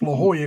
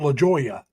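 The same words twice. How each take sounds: First: The J is said as an H sound. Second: The J is said as a hard J sound. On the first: "it's pronounced La Jolla because J's are H's" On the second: "it's spelled La Jolla"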